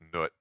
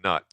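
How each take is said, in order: First: The vowel is a long 'oo' sound. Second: The vowel is a short 'uh' sound. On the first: The speaker calls it right. "but Noot" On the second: The speaker calls it wrong. "not Nut"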